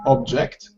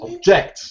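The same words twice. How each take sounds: First: The stress is on the first syllable. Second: The stress is on the second syllable. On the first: It is used as a noun. "so the stress in the noun, Is on the first syllable" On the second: It is used as a verb. "the stress falls on the second syllable with the verbs"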